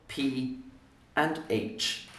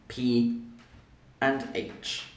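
Both takes have the same delivery.

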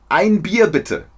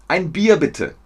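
The two takes are said the same way.

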